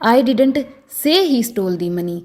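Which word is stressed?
say. The word 'say' carries the stress. It was conveyed some way other than saying it. "अगर मैं से पर जोर डालकर बोलूं"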